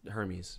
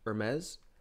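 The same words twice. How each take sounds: First: It is pronounced like the Greek god's name. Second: It is pronounced like the fashion brand's name. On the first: It names the Greek god. "for Greek mythology, that's actually going to be pronounced Hermes" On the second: It names the luxury fashion brand. "if you're really fancy and you buy belt buckles with a large H on it, you would actually pronounce that Hermes"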